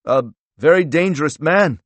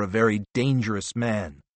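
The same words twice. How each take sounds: First: High, loud incredulous echo; scoffing echo. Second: Said in the usual way. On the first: A narrator's reading. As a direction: throw it back mockingly, pitched up and louder. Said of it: "Strobel replied with a laugh".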